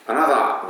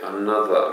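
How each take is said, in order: First: Another said a-na-za with one short n; Japanese-style Another. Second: Another with the n held long, an-na-ther; lengthened n in Another. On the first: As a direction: Another with the n said only once. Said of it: "Anotherじゃなくて". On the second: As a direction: Another saying the n in both syllables. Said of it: "Nがちょっと長いんですよ". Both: Shown as a demonstration.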